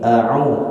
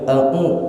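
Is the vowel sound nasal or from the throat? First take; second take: throat; nasal. First: The sound comes from the throat, not nasal. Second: The sound passes through the nose, nasal. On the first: The speaker calls it right. "Suaranya dari sini. Tekanan yang datang dari tenggorokan sebelah tengah" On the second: The speaker calls it wrong.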